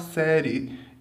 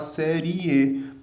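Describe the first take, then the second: First: The i is weak and glides into the e. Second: The i is a full separate syllable. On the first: "a gente até fala série" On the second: "e não fala série"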